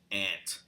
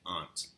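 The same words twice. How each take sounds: First: It is said nasally in a New York accent. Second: It is said in a British-sounding New England accent. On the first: "In New York, ... very much in, into the nose" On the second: "in New England, ... That was very British"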